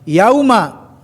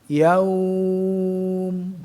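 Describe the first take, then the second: First: The diphthong is short, followed by a vowel. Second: The diphthong is held long before the final stop. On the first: "nah itu kan bukan mad" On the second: "Nah itu dari madlin ya"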